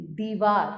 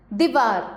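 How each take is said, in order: First: Said in the usual way. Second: दीवार with a short "di", louder; दीवार said as "dih-VAAR"; wrong short i. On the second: Shown as a demonstration. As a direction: clip the first vowel of दीवार. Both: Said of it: "नहीं, दीवार".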